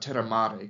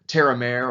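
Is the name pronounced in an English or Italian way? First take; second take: Italian; English. First: The name is said with Italian-style pronunciation. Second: The name is said with English-style pronunciation.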